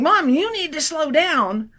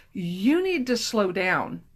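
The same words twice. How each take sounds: First: Lightly voiced whining fifth grader, drawn out; a hint of a child nagging from the back seat; whiny kid voice. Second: A touch of a low, slow policeman voice; lightly voiced officer, measured and firm; stern policeman. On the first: Daughter nagging mom from the back seat, mild whine. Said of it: "fifth grader is saying". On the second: Policeman at the car window, mildly stern and slow. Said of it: "a policeman comes up and says".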